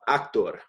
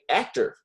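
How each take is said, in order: First: The word is said with a Spanish pronunciation. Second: The word is said with an English pronunciation. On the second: "I'm just looking for the English word here"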